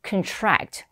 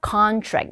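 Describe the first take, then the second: First: The stress is on the second syllable. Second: The stress is on the first syllable. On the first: It means to shrink. "수축하다라는 표현을 쓸 때는 contract 뒷부분에 강세 들어간다" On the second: It means an agreement. "지금 계약할 때는요, contract 이름절 강세 주셔야 되겠고요"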